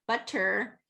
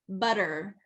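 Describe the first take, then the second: First: The middle consonant is a crisp voiceless T. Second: The middle consonant is a soft voiced tap. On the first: The speaker calls it wrong. "you don't want it to be butter, butter with that voiceless sound" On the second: The speaker calls it right. "be voiced"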